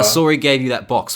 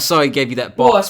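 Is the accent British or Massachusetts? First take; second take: British; Massachusetts. First: It is spoken in a British accent. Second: It is spoken in a Massachusetts accent. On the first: The speaker calls it wrong. "I don't know why I'm speaking with a British accent now" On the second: The speaker calls it right. "Where's where's my Massachusetts voice?"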